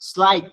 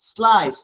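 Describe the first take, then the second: First: The word ends with a k sound. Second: The word ends with an s sound. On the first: The speaker calls it wrong. "স্লাইক হবে না" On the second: The speaker calls it right. "c sounds like s"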